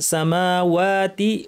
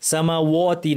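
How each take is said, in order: First: The w sound is made light and thin. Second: The w sound is made heavy and thick. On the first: The speaker calls it right. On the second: The speaker calls it wrong.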